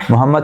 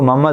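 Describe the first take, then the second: First: Said in the usual way. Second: "محمد" reduced to Mamad; mangled name. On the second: Retold or imitated. ("محمد" کو ممد کہنا) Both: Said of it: "ہم لوگ بگاڑ کے پیش کرتے ہیں".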